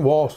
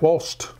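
First: The word ends in a plain P sound. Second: The word ends with an added T sound. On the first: The speaker calls it wrong. "It isn't" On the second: The speaker calls it right. "wasp with a T"

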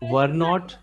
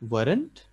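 First: It is said as two full separate words. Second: It is said as one contracted word. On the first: "So were not the ban gaya weren't" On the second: "So were not the ban gaya weren't"

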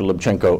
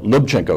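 First: The stress is not on the first syllable. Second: The stress is on the first syllable. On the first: The speaker calls it wrong. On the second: The speaker calls it right.

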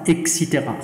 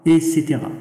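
First: The word begins with an 'eks' sound. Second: The word begins with a plain 'e' sound. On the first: The speaker calls it wrong. "إكسيتيغا خطأ" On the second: The speaker calls it right. "نقول الصواب إيسيتيغا"

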